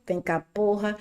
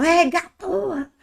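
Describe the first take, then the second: First: Said in the usual way. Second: High, slow drawn-out exclamation. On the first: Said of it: "É vocativo". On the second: Shown as a demonstration. Teacher contrasts the interjection with the vocative, high and drawn out. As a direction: let porra out as a stretched, surprised outburst. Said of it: "é interjeição".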